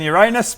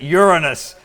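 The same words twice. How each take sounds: First: The name is said in its joke pronunciation. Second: The name is said in its standard pronunciation. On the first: The speaker calls it wrong. "not much better than Uranus" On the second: The speaker calls it right. "You pronounce it Uranus"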